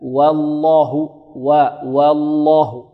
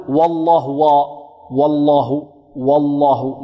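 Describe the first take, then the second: First: "والله" بواو مرققة ولام مفخمة; رقق واو "والله" ثم غلّظ اللام; ترقيق الواو. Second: "والله" بواو مفخمة غلطًا; املأ الفم من أول واو "والله"; تفخيم الواو. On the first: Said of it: "نرقق الواو". (ابدأ "والله" رقيقة وفخّم لامها) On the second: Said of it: "لا نقول". (فخّم الواو مع اللام في "والله") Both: Shown as a demonstration.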